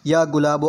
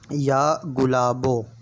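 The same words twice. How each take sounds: First: It is recited quickly, all in one go. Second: It is recited at a slower, measured pace. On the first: "एक बार में पढ़ के तेज़ तर्रार अल्फाज में सुना देता हूँ" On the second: "मैं पढ़ के सुनाता हूँ।"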